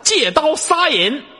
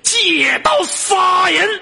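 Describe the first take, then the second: First: It is said flatly, without much energy. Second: It is said forcefully, with great energy.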